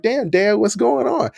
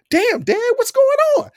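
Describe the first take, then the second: First: Mild protest. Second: Yelled protest. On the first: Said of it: "I was like". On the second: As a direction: shout it up high, half laughing in shock. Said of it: "'cause I yell out". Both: Retold or imitated.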